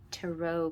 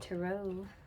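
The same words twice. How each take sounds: First: The word ends in an 'oh' sound. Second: The word ends in an 'ah' sound. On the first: The speaker calls it right. "I need to start pronouncing it tarot" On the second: The speaker calls it wrong. "it sounds like I'm saying Tara"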